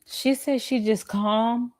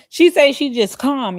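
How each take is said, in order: First: Mocking echo. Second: Incredulous. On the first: Echoing "I'm just calm" slowly. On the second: Real, not acted. Repeats it, louder, incredulous.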